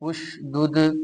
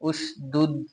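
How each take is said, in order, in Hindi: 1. अंतिम d उछलती हुई गूँज के साथ खत्म होता है। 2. अंतिम d बिना गूँज के सपाट खत्म होता है। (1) "कलकला खूब जाहिर होगा, आवाज लौटती हुई निकलेगी" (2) "उश दुध नहीं पढ़ेंगे"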